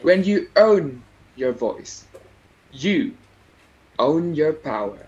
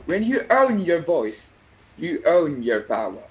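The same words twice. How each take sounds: First: There is a pause after the first 'own'. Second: There is no pause after the first 'own'.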